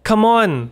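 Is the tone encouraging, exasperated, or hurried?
encouraging. It sounds warm and encouraging. You can do it. "แปลว่าสู้ๆหรือคุณทำได้นะ"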